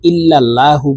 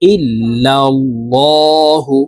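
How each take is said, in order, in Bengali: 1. 'Allah' শব্দে L পাতলা ও হালকা। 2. 'Allah' শব্দে L মোটা ও ভারী। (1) "আমরা অনেকে এখানে একটি ভুল করে থাকি, ইল্লাল্লাহু বলে থাকি" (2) "এই লামকে ল অর্থাৎ মোটা করিয়া পড়িতে হয়... এইভাবে পড়ব"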